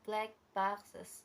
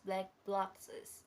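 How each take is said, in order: First: The second word begins with a plain b sound. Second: The second word begins with a bl sound. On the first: The speaker calls it right. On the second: The speaker calls it wrong.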